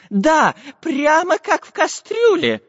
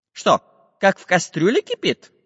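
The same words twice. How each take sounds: First: High, slow professor voice agreeing; excited agreement. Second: Higher, puzzled iron man; puzzled questioning. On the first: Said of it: "согласился географ". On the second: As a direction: ask back in disbelief. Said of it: "переспросил Самоделкин". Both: Acted.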